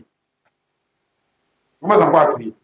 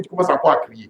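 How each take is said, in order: First: Drawn-out whining imitation, slow; slow, mocking lament; slow mock wail. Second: Said in the usual way. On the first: Shown as a demonstration. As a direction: mimic a believer groaning in pain.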